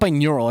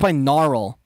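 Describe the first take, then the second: First: The middle is said without the 'a' sound. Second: The middle is said with 'aural', like audio. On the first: The speaker calls it wrong. "not binaural" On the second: The speaker calls it right. "it's binaural"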